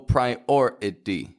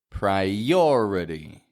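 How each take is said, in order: First: There is a break between the I and O. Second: A Y glide links the I and O. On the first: The speaker calls it wrong. "there's no break between the I and the O. I don't go priority" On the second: The speaker calls it right. "I connect them with one of those Y glides"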